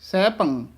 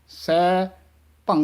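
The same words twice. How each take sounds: First: The two syllables are joined together. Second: The two syllables are said separately. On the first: The speaker calls it right. "ਸਹਿ ਭੰਗ ਇਕੱਠਾ ਕਹਿਣਾ ਹੈ" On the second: The speaker calls it wrong. "ਨਹੀਂ ਕਹਿਣਾ ਹੈ"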